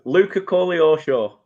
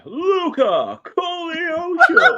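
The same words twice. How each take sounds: First: It is said in his plain, normal voice. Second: It is said in a dramatic X Factor announcer voice.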